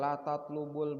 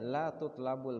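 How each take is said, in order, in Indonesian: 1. Kata kerjanya diucapkan dengan vokal 'a': tatlubu. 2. Kata kerjanya diucapkan dengan vokal 'u-a': tutlabu. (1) "itu nggak dapat" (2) "Yang sesuai itu dibacanya"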